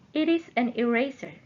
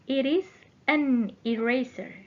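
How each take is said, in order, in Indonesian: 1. Kalimat itu diucapkan lebih cepat. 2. Kalimat itu diucapkan lebih lambat.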